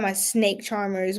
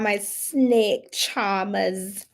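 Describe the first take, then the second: First: Said in the usual way. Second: Slow put-on accent dropping the R; drawn-out "charmers" in a badly faked accent; hammy fake accent, very slow; terrible accent. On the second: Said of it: "Terrible accent, but it's fine".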